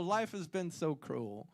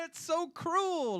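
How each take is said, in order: First: Softer, sighing take on cruel; quiet, mock-weary lament; mock sorrow. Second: High, slow, hammed-up wail on cruel; mock-tragic cry, stretched out; mock lament. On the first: Repeating the joke to the audience, a softer mock-sorrowful sigh. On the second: Joking about rationed toilet paper, a high hammed-up wail.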